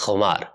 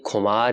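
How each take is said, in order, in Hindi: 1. यह एक खुरदरी गले की 'ख़' घर्षण ध्वनि से शुरू होता है। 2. यह एक सादी महाप्राण 'क' ध्वनि से शुरू होता है। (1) "ख के नीचे नुक्ता है इसलिए इसकी आवाज़ हो जाती है" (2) "ये खुमार या खुमारी नहीं है"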